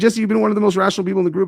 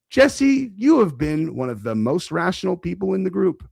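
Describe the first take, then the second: First: It is read at a normal speed. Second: It is read very slowly.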